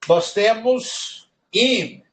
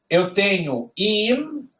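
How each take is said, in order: First: Im held long and higher, falling at the end; Hebrew im. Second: Im said slowly and raised, with the final m closed; Hebrew im. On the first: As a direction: drawl out im slowly for the class to hear. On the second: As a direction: stretch out im so students catch it. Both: Shown as a demonstration. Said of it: "Olha só como muda".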